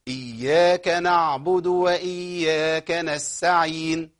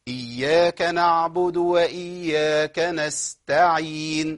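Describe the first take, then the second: First: The t sound in the last word is dropped. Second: The t sound in the last word is clear. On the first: The speaker calls it wrong. "وقعت من التاء نستعين" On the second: The speaker calls it right. "ده الصواب"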